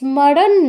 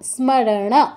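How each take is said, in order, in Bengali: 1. s-এর পরের 'm' নীরব। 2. s-এর পরের 'm' স্পষ্টভাবে উচ্চারিত হয়। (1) "বাংলায় আমরা এই স্মরণ বলি শুধু স এর উচ্চারণটা করি ম এর উচ্চারণটা কিন্তু করি না" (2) "সংস্কৃতে করতে হবে স্মরণ বলতে হবে"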